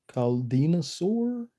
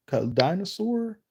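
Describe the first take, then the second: First: Caldinosaur read slowly as cal-DEE-no-saur; sounding out Caldinosaur carefully; unsure reading of a name. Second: Caldinosaur retried as cal-DIE-no-saur, higher; second try at a name. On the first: Reading a viewer's name, unsure and slow. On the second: Reading a viewer's name, retrying it higher. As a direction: try Caldinosaur again with a long I. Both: Real, not acted. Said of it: "I'm really terrible with just reading people's names".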